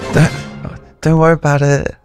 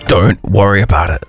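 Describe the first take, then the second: First: It is said in a nervous tone. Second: It is said in an angry tone.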